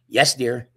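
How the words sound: It is said with a sassy attitude.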